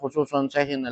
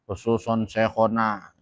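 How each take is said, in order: First: The second word ends in an i-vowel before na. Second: The second word ends in an a-vowel before na. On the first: The speaker calls it wrong. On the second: The speaker calls it right. "Harus dibaca nasab"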